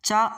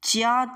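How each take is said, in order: First: It is said as one sound without 'i'. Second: An 'i' sound is heard before the 'a'. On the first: The speaker calls it right. "சா, சு, சோ அப்படின்னு உச்சரித்தாலே போதும்" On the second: The speaker calls it wrong. "சியா, சியூ, சியோ அப்படிலாம் உச்சரிக்க தேவையில்ல"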